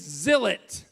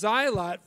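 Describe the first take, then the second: First: The first vowel is a short 'ih' sound. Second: The first vowel is a long 'eye' sound. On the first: The speaker calls it right. "it's zillet" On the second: The speaker calls it wrong. "it's not pronounced zylot"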